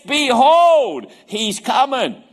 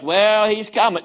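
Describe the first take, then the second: First: It is said in an excited, emphatic tone. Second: It is said in a casual, flat tone.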